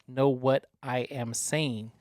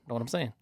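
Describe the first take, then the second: First: Each word is said separately and clearly. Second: The words run together like one word.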